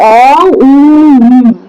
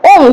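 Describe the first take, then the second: First: It is split into separate vowel parts. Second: It is said as one short syllable. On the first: The speaker calls it right. "Brahma Vishnu Maheshwar" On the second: The speaker calls it wrong. "শুধু ওম যদি বলি ওম হবে না"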